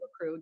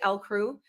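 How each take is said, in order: First: The name begins with a 'la' sound. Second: The name begins with an 'el' sound. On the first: This is how other people close to the speaker say it. "my sister and like a bunch of my close friends say La Crew" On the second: This is how the speaker usually says it. "I typically say El Crew"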